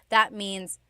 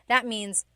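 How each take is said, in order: No difference in how they are said.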